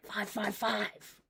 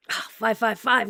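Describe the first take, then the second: First: Slow and very soft, drawn out; quiet, slow. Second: Said in the usual way. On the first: Shown as a demonstration. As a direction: murmur it slowly, barely audible.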